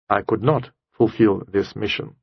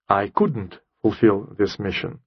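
First: It sounds serious and responsible, like a soldier. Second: It sounds casual and careless, like an irresponsible girl.

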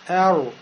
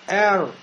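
First: The r ends with a rounded u-like vowel. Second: The r ends cleanly with no vowel after it. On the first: The speaker calls it wrong. "я губы сейчас пошевелил, сделал кольцо, у меня сукун стал похож на домму" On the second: The speaker calls it right. "губы не шевелятся"

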